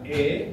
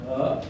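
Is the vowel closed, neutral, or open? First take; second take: closed; neutral. First: The vowel is a closed e, as in sate. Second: The vowel is a neutral, relaxed schwa-like sound. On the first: "Like you say sate" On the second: "Yang pertama bunyinya O"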